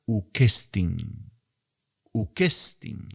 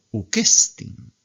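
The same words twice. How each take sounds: First: Ukestin said as one word with a rising end; teacher shows the joined form; joined reading. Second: Ukestin slow, pitch rising on the last syllable. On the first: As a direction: blend uk and estin into Ukestin. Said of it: "vamos a tener que leerla ukestin". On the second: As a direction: lift the tone at the end of Ukestin. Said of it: "suben el tono". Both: Shown as a demonstration.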